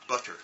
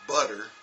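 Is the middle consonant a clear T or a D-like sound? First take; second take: clear T; D-like. First: The middle consonant is a clear, crisp T. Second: The middle consonant is a soft D-like sound. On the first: "the English say butter. ... they actually say the T's" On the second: "we might say butter"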